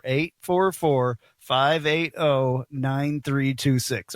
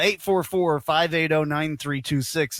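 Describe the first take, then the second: First: Slow, deliberate phone number; unhurried, digit-by-digit read; slower. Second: Said in the usual way. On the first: Real, not acted. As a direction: space out each digit for listeners. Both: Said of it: "I'll say it slower".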